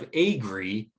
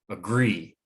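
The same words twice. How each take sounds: First: Both syllables are said with even strength. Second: The second syllable is louder, slower and higher. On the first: The speaker calls it wrong. "Instead of agree" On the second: The speaker calls it right. "The gree part is more pronounced. It's louder, it's slower"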